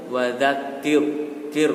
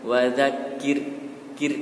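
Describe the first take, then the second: First: "wadzakir, kir" with heavy, rounded R; pouted-lip, thick R in "wadzakir, kir"; thick final R. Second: "Wadzakir, kir" with light R, lips spread; spread-lipped, thin R in "Wadzakir, kir"; thin final R. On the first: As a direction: push the lips forward on the R of "wadzakir, kir". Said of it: "Kalau yang tebal itu". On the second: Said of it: "Tapi yang tipis itu mengucapkannya dilebarkan bibirnya". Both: Shown as a demonstration.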